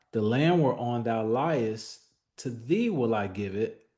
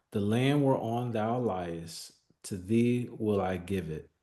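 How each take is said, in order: No difference in how they are said.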